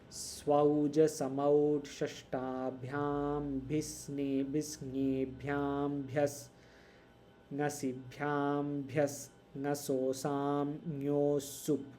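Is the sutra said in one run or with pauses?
with pauses. The sutra is broken up with pauses.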